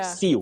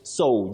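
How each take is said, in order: First: The word does not rhyme with 'go'. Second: The word rhymes with 'go', like planting seeds. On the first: The speaker calls it wrong. "Many people talk of sew" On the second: The speaker calls it right. "but it's sow, just like sow of planting"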